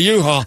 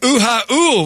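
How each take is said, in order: First: It is said as two syllables, you-haul. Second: It is split into three syllables, ooh-ha-ool. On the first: It is how other people call it. "You call it a U-Haul" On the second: The speaker claims to be Hawaiian deep down. "I call them ooh-ha-ools. Because I'm Hawaiian deep down"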